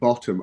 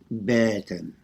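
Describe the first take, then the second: First: The vowels sound like the usual short 'o'. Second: The vowels sound like 'er' as in 'burn'. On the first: "won't be pronouncing it bottom" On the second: "I'll be pronouncing it like B E R T E R M"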